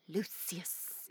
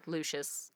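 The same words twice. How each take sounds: First: Lucius said slowly as LOO-see-us. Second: Lucius said as LOO-shus. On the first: Host naming a favoured version, Lucius as LOO-see-us. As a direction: stretch "Lucius" into three syllables with a hissed S, LOO-see-us. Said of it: "I like Lucius". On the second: Host giving the other reading, Lucius as LOO-shus. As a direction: say "Lucius" in two syllables with SH in the middle. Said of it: "I always read it as Lucius". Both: Shown as a demonstration.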